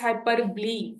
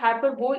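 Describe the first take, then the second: First: The word ends with a 'blee' sound. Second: The word ends with a 'bowl' sound. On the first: The speaker calls it right. "It's हाइपरब्ली, ब्ली" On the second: The speaker calls it wrong. "It's not हाइपरबोल"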